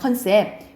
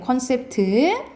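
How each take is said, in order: First: It begins with 'keon' and ends on 'sep'. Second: It begins with 'kon' and ends with 'teu'. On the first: The speaker calls it wrong. "컨셉 많이 하잖아요" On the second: The speaker calls it right. "콘셉트예요"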